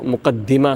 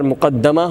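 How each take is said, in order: First: The vowel after the d is 'i'. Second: The vowel after the d is 'a'. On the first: It comes first and introduces what follows. "दाल के नीचे कसरा है" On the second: The author placed it first. "अगर मुकद्दमा होगा बिफ़तहिहा"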